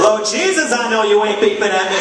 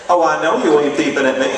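First: Higher, louder, more outraged sass; heightened sass. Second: Louder, sassy disbelief; indignant sass. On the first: Honked-at driver, heightened outraged sass. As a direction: raise the stakes, outraged. Repeated with Lord Jesus. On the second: Honked-at driver, sassy indignation. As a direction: dare them to honk again. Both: Retold or imitated.

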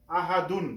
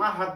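First: আহাদুন with the full "-dun" ending sounded; unpaused ending. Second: আহাদ stopped on D, no "-un"; pausal ending. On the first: Teacher shows the form used when not stopping, "-dun" ending. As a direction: carry আহাদুন through to a final N. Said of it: "আহাদুন আমরা বলবো না". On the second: Teacher shows how to stop at verse end, pausal D. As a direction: close আহাদ on the D without a vowel ending. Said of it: "যদি থামি". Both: Shown as a demonstration.

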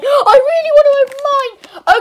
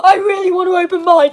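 First: Excited pleading. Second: Said in the usual way. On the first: Acted. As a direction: beg harder the second time. [name] repeats wish, second louder.

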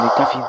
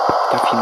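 First: Said in the usual way. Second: Whispered in fear; whispering. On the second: Real, not acted. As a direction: breathe the words out, no voice. Monstro se aproximando, tensão. (sussurrando com medo)

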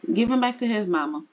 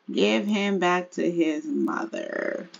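First: Quick instruction. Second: Drawn-out, measured instruction; slow, careful rewording. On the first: First take, then reworded slowly. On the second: Player handing baby back to his mother, slow and deliberate. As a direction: stretch it out slowly, word by word. Rewords it slowly after laughing. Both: Pretend.

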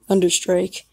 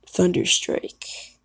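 First: Said in the usual way. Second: Whispered name. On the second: Shown as a demonstration.

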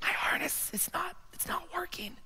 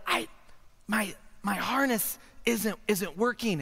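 First: High, strained whisper; tiny secretive squeak of breath; barely audible whisper. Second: Soft but voiced, slow and halting; hesitant, hushed admission; speaking up slightly. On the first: Acted. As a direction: whisper it so nobody else gets scared. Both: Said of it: "You're gonna have to speak up".

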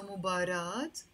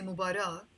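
First: "مباراة" ending in an audible t, mubarat; long ah then t at the end of "مباراة"; sounded T ending. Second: "مباراة" ending in ah, no t, mubara; silent T ending. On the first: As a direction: close "مباراة" on a t. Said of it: "we have the option of doing that". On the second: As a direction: leave the ة of "مباراة" unsounded. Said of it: "you can also say مباراة". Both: Shown as a demonstration.

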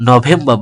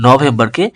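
First: নভেম্বর as "no-vem-ba", r dropped; silent final R. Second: Said in the usual way. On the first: Shown as a demonstration. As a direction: end নভেম্বর on "ba", without r. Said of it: "রটা উজ্জ্ব থাকবে". (নভেম্বর-কে "নভেম্বা" উচ্চারণ) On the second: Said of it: "নভেম্বর বলবো".

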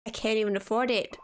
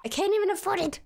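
First: Said in the usual way. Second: I can't EVEN afford it, pitched high; squeaky outraged repeat; exasperated high repeat. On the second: Real, not acted. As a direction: repeat it higher in disbelief.

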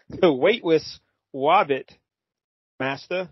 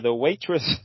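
First: "waitress Wobbit" with W for every R, haltingly; robot's R-less speech. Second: Said in the usual way. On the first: Acted. Podcaster struggles through robot voice, saying "Wobbit" for robot. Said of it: "you do the robot voice". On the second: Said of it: "I can't do this".

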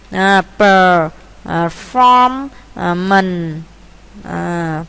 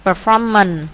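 First: "performance" broken into per, form, mance with long gaps; syllable by syllable. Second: Said in the usual way. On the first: Shown as a demonstration. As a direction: sound out "performance" one slow piece at a time. Teacher builds a word by syllables. (đọc tách từng âm "performance")

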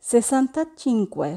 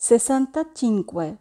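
Both takes have the same delivery.

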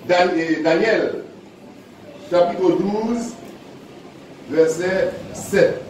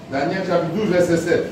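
First: Slow, spaced-out reading of the reference "Daniel, chapitre douze, verset sept"; slow dictation. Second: Said in the usual way. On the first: Acted. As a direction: spell out "Daniel, chapitre douze, verset sept" slowly so people can find it. Announces reference slowly.

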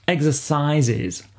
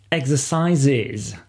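First: "Exercises" slow with a clear iz ending; plural s pronounced. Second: "exercises" slow, the final -es clearly voiced as iz; plural s pronounced. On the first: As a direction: say "Exercises" slowly, land the ending. (« Exercises » lentement, le -es final marqué) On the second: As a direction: stretch out "exercises", hit the ending. (« exercises » lent, finale -es bien audible) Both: Shown as a demonstration. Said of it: "Attention à bien prononcer le S du pluriel".

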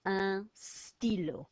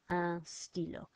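First: Un stylo said slowly, nasal un; careful slow un stylo; slow model. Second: Un stylo at a normal pace; natural un stylo; model at pace. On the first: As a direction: stretch out un stylo for learners. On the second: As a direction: say un stylo smoothly. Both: Shown as a demonstration.

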